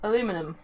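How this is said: It is said the American way, four syllables. The speaker calls it wrong.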